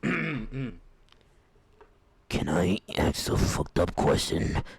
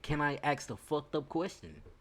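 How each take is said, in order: First: It is read in a put-on character voice. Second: It is read in his ordinary voice.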